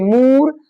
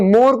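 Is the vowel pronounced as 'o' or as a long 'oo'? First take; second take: oo; o. First: The vowel is stretched into a long 'oo'. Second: The vowel is a short 'o' sound. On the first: The meaning gets spoiled. The speaker calls it wrong. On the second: It means peacock. The speaker calls it right.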